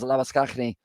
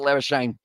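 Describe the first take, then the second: First: The name is said the way South Africans would. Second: The name is said in a different, non-South African way. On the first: This is how many South Africans say the name. "they would pronounce it as Labuschagne" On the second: This is how the bearer himself says the name. "he goes with Labuschagne"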